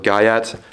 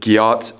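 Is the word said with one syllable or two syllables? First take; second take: two syllables; one syllable. First: The word is said with two syllables. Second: The word is said as one syllable. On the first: "or gayat" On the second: "either you pronounce it gyat"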